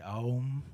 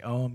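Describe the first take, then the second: First: It is said in the Hindu way. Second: It is said in the Tibetan way. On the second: "If you hear the Tibetan monks do it, it sounds like Om"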